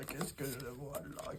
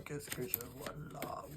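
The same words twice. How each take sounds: First: Much softer, slow, hushed; fading mystic murmur. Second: Whispered, soft and secretive; mystic whisper. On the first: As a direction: let the question drift away mysteriously. Fortune teller repeats, fading. (murmure mystérieux) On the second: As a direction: breathe the question like a seer. Repeats in whisper. (chuchotement de voyante) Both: Pretend.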